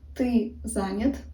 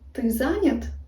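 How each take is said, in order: First: It is said as a statement. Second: It is said as a question.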